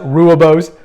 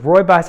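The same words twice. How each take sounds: First: The word is pronounced the way it looks spelled. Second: The word is pronounced differently from its spelling. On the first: The speaker calls it wrong. "commonly spelled and mispronounced" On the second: The speaker calls it right. "but rooibos"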